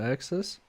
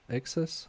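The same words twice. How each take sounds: First: "excess" opening on an "ak" sound, like "access"; unsure pronunciation. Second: "Excess" opening on an "ek" sound, as a question; questioning pronunciation. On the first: Streamer unsure of a word while soldering, unsure pronunciation. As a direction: say "excess" as AK-sess, rising as if asking. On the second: Streamer second-guesses a word aloud, questioning pronunciation. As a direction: try "Excess" as EK-sess, checking the word. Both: Real, not acted. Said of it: "I don't know how you say it".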